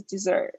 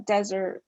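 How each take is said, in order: First: Dessert stressed on the last syllable; second-syllable stress. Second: Desert stressed on the first syllable. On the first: Tutor comparing English stress, dessert stressed last. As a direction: say dessert as "di-ZERT". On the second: Tutor comparing English stress, desert stressed first. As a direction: say desert as "DEH-zert". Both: Shown as a demonstration. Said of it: "like in English when we say".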